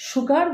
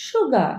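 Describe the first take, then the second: First: "সুগার" with a sounded final r; common mispronunciation. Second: "সুগা" with silent final r; correct pronunciation. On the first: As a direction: say সুগার ending in r. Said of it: "ভুল উচ্চারণ করে থাকি". ("সুগার" শেষে র-সহ ভুল উচ্চারণ) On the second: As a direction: end সুগা on an open a. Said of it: "correct pronunciation হবে". ("সুগা" শেষে র ছাড়া শুদ্ধ উচ্চারণ) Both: Shown as a demonstration.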